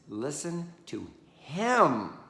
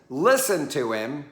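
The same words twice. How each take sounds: First: The stress is on him. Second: The stress is on listen.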